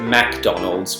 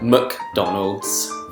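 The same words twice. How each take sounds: First: It is said in an Australian accent. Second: It is said in a British accent. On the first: "people tend to pronounce it McDonald's" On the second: "the Brits call it McDonald's"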